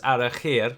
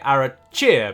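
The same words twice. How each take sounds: First: The ch is a throaty German-style sound. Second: The ch is an English ch sound. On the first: A German reader would say it this way. "if you are German, for example, you might automatically read that as Arachir with a ch" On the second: An English speaker would say it this way. "if you spoke English... you're more likely to say Arachir, because we say ch a lot more"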